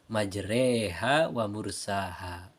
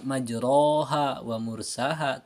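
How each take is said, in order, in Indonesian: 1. Vokal setelah r condong ke 'e'. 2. Vokal setelah r adalah bunyi 'a' penuh. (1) "tapi dibaca majreha wa mursaha" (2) "jadi tidak dibaca majroha wa mursaha"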